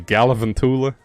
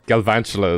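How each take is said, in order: First: The name is said with five syllables. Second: The name is said with four syllables. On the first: The speaker calls it wrong. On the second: The speaker calls it right.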